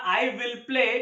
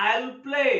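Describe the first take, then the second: First: Said in the usual way. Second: I'LL as one syllable; fuse I and will into I'LL; stylish contraction. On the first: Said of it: "अगर मुझे बोलना". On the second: Shown as a demonstration. Teacher shows students how to say it in style, contracted I'LL. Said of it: "style से बोल सकता हूँ".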